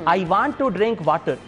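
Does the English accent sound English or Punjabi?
Punjabi. It is spoken with a Punjabi accent. The speaker calls it wrong. "इसमें आपको English में पंजाबी की झलक नजर आ रही है।"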